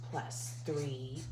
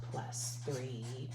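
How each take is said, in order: Both takes have the same delivery.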